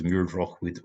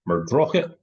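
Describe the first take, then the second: First: The final word is said in full. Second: The final word is reduced to one weak syllable. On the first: The name is read as spelled on a map. "I would say this as Muirdroch Wood were I reading it off of a map" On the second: The name is said the way locals say it. "the local pronunciation is something like Muirdrochit"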